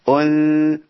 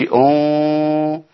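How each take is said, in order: First: The nasal sound is light and thin. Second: The nasal sound is heavy and full. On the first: The speaker calls it right. "مرققة" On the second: The speaker calls it wrong. "ما قلتش اون"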